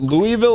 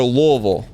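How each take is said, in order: First: "Louisville" said as LOO-ee-vil; French-style pronunciation. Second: "Louisville" slurred into LOO-uh-vul; local pronunciation. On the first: Host asking a local, "Louisville" as LOO-ee-vil. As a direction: sound out all three syllables of "Louisville". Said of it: "And is it pronounced Louisville or". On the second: Host asking a local, "Louisville" as LOO-uh-vul. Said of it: "is it pronounced Louisville or Louisville". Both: Shown as a demonstration.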